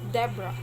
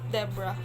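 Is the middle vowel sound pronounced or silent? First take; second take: silent; silent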